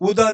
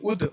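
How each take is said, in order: First: The word ends in a long a vowel. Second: The word ends in the d consonant. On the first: The speaker calls it wrong. "उदा नहीं" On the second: The speaker calls it right.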